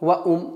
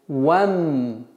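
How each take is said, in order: First: An extra 'u' vowel is inserted before the m. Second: The 'wa' moves straight onto the m, no vowel. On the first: The speaker calls it wrong. "Нет" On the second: The speaker calls it right. "с фатхи вава перепрыгиваем на мим"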